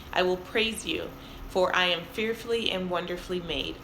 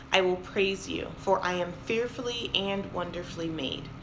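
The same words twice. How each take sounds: The two takes are said the same way.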